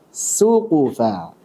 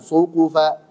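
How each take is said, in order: First: The s sounds light and thin. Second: The s sounds heavy and thick, like sad. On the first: The speaker calls it right. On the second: The speaker calls it wrong.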